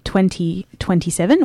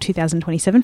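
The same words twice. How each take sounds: First: The year is read in the American way. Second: The year is read in a non-American way. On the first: "that American pronunciation" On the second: "for people who don't like that American pronunciation"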